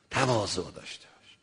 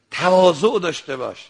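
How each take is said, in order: First: Low, soft word of advice; hushed exhortation. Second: تواضع raised and pressed firmly; firm exhortation. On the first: Preacher repeating advice to listeners, hushed and low. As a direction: drop right down for تواضع. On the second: Preacher urging listeners to be humble, firm exhortation. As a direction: urge it out clearly on تواضع. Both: Real, not acted.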